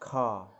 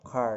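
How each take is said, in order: First: It is said in a British accent. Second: It is said in an American accent.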